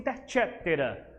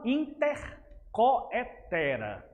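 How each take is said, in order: First: The middle syllable is said as 'ce'. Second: The middle syllable is said as 'coe'. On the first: It is the accepted pronunciation. "se pronuncia intercetera" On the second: It follows the written spelling. "mas é coetera mesmo"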